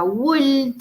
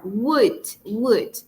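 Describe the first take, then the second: First: "would" with the L wrongly sounded; wrong pronunciation of would. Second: "would" with a silent L, ending in D; correct pronunciation of would. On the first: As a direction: say "would" pronouncing the silent L. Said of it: "no se pronuncia would". ("would" mal pronunciado, haciendo sonar la L) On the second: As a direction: model "would" clearly, no L sound. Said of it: "esa es la pronunciación correcta". ("would" bien pronunciado, con la L muda) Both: Shown as a demonstration.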